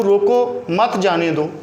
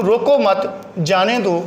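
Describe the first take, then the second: First: Slow, with रोको set apart from मत जाने दो; pause after रोको. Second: Slow रोको मत as one group, break, then जाने दो; pause after मत. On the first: Teacher demonstrating punctuation by stopping after रोको, slow and deliberate. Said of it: "मैं रोको पे ठहरा हूँ". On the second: Teacher showing the opposite meaning, slowly pausing after रोको मत. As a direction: stop after मत, before जाने दो. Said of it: "रोको मत पे रुका". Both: Shown as a demonstration.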